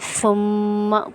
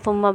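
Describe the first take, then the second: First: The doubled m is held with a nasal hum. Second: The doubled m is rushed without a nasal hum. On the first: The speaker calls it right. "मीम पे गुन्ना होगा" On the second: The speaker calls it wrong. "जल्दी जल्दी के चक्कर में ऐसे पढ़ते हैं"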